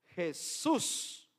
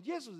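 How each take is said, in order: First: "Jesús" with a Spanish J, "heh-SOOS"; deliberate Spanish "Jesús", rising at the end. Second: "Jesús" as "Yesus", with a Y onset; "Jesús" with a glide in place of the J; Greek pronunciation. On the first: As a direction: say "Jesús" with a raspy H onset, stress on the end. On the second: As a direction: say "Jesús" the un-Spanish way, "YEH-soos". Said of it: "no decimos Jesús". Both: Shown as a demonstration.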